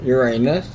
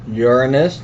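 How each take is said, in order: First: The stress is on the second syllable. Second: The stress is on the first syllable. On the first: The speaker calls it wrong. "not Uranus" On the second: The speaker calls it right. "Notice how I pronounce Uranus"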